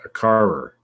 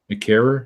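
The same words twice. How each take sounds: First: "carer" said as "karer" with a hard American r at the end; "a carer", American style, r fully sounded; American pronunciation. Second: "A carer?" with "carer" said as "keh-ruh", the r dropped; British pronunciation. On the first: Real, not acted. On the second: Shown as a demonstration. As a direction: mimic the British "carer", rising like a question. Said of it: "Carer, yeah".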